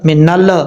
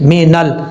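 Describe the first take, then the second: First: The final L bounces with an echoing release. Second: The final L is held without any bounce. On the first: The speaker calls it wrong. "मीनल मीनल तो गलत हो जाएगा। ये जो ल ल की आवाज़ आ रही है ना, ये नहीं आनी चाहिए।" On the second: The speaker calls it right. "इस तरीके से मीनल"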